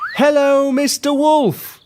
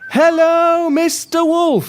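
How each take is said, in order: First: It is shouted loudly. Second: It is shouted very loudly.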